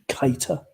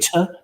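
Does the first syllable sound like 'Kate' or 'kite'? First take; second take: kite; Kate. First: The first syllable sounds like 'kite'. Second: The first syllable sounds like 'Kate'. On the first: The speaker calls it wrong. "we do not tolerate the, the pronunciation Keita" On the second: The speaker calls it right. "as in Kate Adie, Kate Moss, or Kate Winslet"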